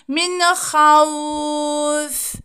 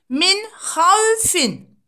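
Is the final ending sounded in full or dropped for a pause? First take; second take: dropped; full. First: The ending is dropped and the vowel is lengthened. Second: The word ends with its full final vowel ending. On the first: "durmamız gerekirse burada min havf şeklinde dururuz" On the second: "yazıldığı gibi okunur"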